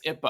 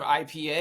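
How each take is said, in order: First: It is pronounced as a single word. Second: It is spelled out as three separate letters. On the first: "they make it like a word" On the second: "instead of three letters"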